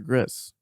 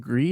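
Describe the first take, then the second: First: It is said the American way. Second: It is said the French way. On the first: The speaker calls it wrong. "you you did American version of it" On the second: The speaker calls it right. "I think it's Gree"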